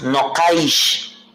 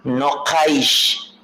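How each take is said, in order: First: The word is shortened, ending in -aish. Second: The same.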